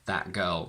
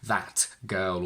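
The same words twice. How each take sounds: First: The t in 'that' is a glottal stop. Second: The t in 'that' is fully released. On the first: The speaker calls it right. "will only be able to say" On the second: The speaker calls it wrong. "you will never be able to go back to saying"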